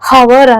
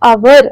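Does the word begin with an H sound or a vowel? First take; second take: H sound; vowel. First: The word begins with an audible H sound. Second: The word begins directly with a vowel sound. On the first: The speaker calls it wrong. "ಹವರ್ ಅನ್ನಲ್ಲ" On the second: The speaker calls it right. "ಅವರ್ ಅಂತೀವಿ"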